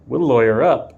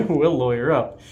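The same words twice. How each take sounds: First: A touch of cocky defiance; defiant. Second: Said in the usual way. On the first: Real, not acted. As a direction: toss it off boldly.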